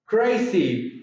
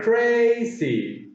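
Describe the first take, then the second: First: Said in the usual way. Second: CRAZY stretched into two beats, high first syllable; split into syllables. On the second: Shown as a demonstration. Teacher counting two syllables, CRAZY pulled apart. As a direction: hold the first syllable of CRAZY, then drop. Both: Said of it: "Two syllables".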